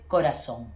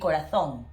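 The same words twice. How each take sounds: First: The z sounds the same as an s. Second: The z sounds different from an s. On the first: This is how it is said in Latin America. "Latin America, we say corazón" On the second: This is how it is said in Spain. "in Spanish from Spain will be corazón"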